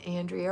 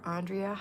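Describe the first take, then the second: First: Andrea said as "AN-dree-uh"; first pronunciation option. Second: Andrea said as "AHN-dree-uh"; alternative pronunciation. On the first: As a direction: open Andrea with the A of "and". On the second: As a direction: open Andrea with a broad "ah". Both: Shown as a demonstration. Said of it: "is Andrea or Andrea".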